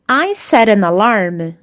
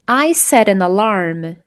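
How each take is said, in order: Both takes have the same delivery.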